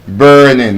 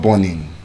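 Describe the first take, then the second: First: The vowel is said with a long R sound. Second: The vowel is said without a long R sound. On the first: The speaker calls it right. "can also give us the long R sound" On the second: The speaker calls it wrong. "Your food is not"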